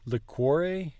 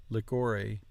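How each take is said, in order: First: "liquore" as li-KWOR-eh, with W glide. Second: "liquore" as lik-OR-ee, no W glide. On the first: Learner settles on Italian reading, KW sound. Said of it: "Q U seems to be more of a qua". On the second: Learner tests English-style QU, softer K version. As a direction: say QU in "liquore" as plain K. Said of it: "just like a K". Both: Shown as a demonstration.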